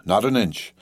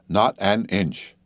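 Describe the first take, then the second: First: Said in the usual way. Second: "not an inch" very slow, word by word; emphatic repeat. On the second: A narrator's reading. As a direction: draw out "not an inch" with deliberate weight.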